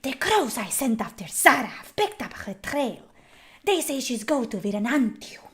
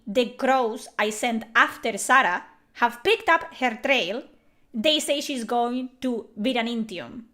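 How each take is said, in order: First: Mock husky whisper, the end going breathless; game voice actor's delivery. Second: Names said the Spanish way, Sarah and Viranitium crisp and clear; Spanish pronunciation. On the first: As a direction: imitate the dubbed actor's hushed read. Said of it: "You don't say". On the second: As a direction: read the line with real Spanish vowels. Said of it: "That's how you say it". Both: Shown as a demonstration.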